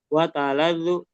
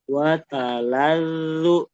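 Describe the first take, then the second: First: The doubled consonant is cut short and rushed. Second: The doubled consonant is pressed and held long. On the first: The speaker calls it wrong. "Jangan jadi watalalu, alirkan dulu" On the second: The speaker calls it right. "ditekan dan dialirkan"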